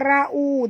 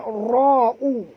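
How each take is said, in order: First: The r sound is thin and light. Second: The r sound is thick and heavy. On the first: The speaker calls it wrong. "jangan baca ra'u" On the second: The speaker calls it right. "Ra ni ra tebal"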